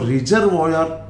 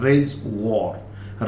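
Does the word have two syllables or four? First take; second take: four; two. First: It is said with four syllables, ri-zer-voy-er. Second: It is said with two syllables, rez-war. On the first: The speaker calls it wrong. "सही उच्चारण नहीं है" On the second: The speaker calls it right. "इसका सही pronunciation रेज वॉर"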